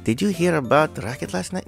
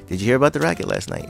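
First: It is said with a put-on French accent. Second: It is said in the speaker's plain accent. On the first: "I would love to try to do this in a French accent" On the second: "No, I can't do it"

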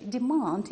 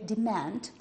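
First: The word is said in a British accent. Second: The word is said in an American accent. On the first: "In British English, we say demand" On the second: "In American English, we say demand"

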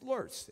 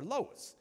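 First: The word is said the German way. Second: The word is said the Southern way. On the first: The speaker is German. "If you're German, it's Lurs" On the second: The speaker is from the South. "And if you're in the South, y'all, we call it Lois"

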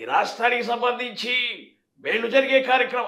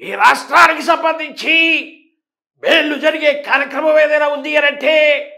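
First: It is said more softly, toned down. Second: It is said loudly with a strained voice.

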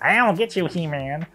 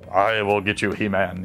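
First: It is said in a high, comical voice. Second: It is said in a deep, menacing voice.

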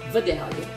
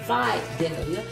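First: The first vowel is a short 'ih' sound. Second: The first vowel is a long 'eye' sound. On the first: The speaker calls it wrong. "it's not Vidalia" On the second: The speaker calls it right. "Emphasis on the first vowel, I. ... Long I there"

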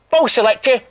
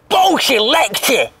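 First: It is said in a neutral tone. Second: It is said in an angry tone.

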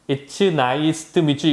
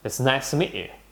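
First: Each word is said separately in a choppy rhythm. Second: The words flow together quickly in a linked rhythm. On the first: The speaker calls it wrong. "이거는 우리식 뚝딱뚝딱으로 하는 거죠" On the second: The speaker calls it right. "샬라샬라 느낌으로 해보면"

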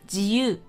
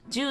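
First: The ji and yu sounds are said separately. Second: The ji and yu sounds merge into one 'ju'. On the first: It means free. The speaker calls it right. "G 和U 一定要分开读哦" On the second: It sounds like the word for ten. The speaker calls it wrong. "不要读成ju 了，ju 那是十"

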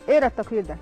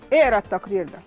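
First: It is said in a calm, polite tone. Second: It is said in a sharp, annoyed tone.

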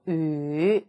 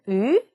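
First: The pitch dips low. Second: The pitch rises like a question. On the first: "삼성" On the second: "이성"

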